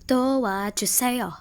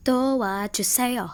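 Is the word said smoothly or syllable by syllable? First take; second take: syllable by syllable; syllable by syllable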